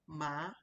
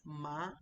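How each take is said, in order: First: The pitch rises through the syllable. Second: The same.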